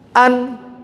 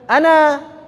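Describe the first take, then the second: First: The word ends abruptly on the n sound. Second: The word ends on a drawn-out a vowel. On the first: The speaker calls it wrong. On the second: The speaker calls it right.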